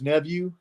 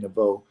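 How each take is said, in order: First: The name sounds like the word nephew. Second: The name sounds like Neveau, ending in 'oh'. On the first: This is how the family says it. "My uh my family says nephew" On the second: This is the form a phone assistant recognizes. "I have to actually have to pronounce it correctly, and I have to say Neveau"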